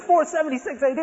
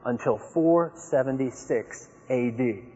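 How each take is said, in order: First: Four seventy-six A D echoed much higher in disbelief; high disbelieving echo; incredulous echo. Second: Four seventy-six A D laid out slowly and deliberately; slow lecturing assertion; slow authoritative claim. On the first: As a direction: repeat it as if you can't believe it. My goodness. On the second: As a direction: state it like settled fact, slowly. Opponent's claim quoted. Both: Retold or imitated.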